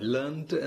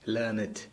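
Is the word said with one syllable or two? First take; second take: One; Two. First: It is said as one syllable, ending in t. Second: It is said as two syllables, ending in -ed. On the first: It is the past participle of the verb. "ലേൺറ്റ് എന്നാണ് ഉച്ചാരണം" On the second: It is an adjective meaning educated. "തനിച്ച് ഒരു അഡ്ജക്റ്റീവായിട്ട് പറയുമ്പോൾ"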